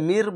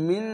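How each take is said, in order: First: The final n turns into an r sound. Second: The word ends with a clear n sound. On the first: The speaker calls it right. "মির বলতে হবে" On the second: The speaker calls it wrong. "ওই মিন না বলে"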